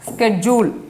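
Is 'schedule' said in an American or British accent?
American. It is said with an American pronunciation. "American இங்கிலீஷில் என்ன சொல்லுவாங்க? ஸ்கெட்யூல் அப்படின்னு தான் சொல்கிறாங்க"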